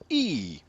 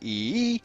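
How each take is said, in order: First: The pitch falls sharply from high to low. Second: The pitch starts low, then goes up. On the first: "one that goes down" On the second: "the tick, where you start low and then you go up"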